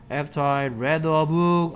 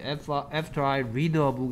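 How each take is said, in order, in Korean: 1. 'read'는 과거형으로 발음해요. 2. 'read'는 현재형으로 발음해요. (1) "어떻게 읽어야 된다?" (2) "이라고 하면 말이 안 됩니다"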